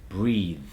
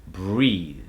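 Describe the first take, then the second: Both takes have the same delivery.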